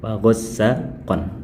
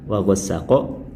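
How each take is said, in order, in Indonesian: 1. Kata terakhir berakhir dengan bunyi n. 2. Kata terakhir berakhir dengan vokal, tanpa n. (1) "tanwin an yang ada di akhir" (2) "Kalau dipraktekkan cara berhentinya"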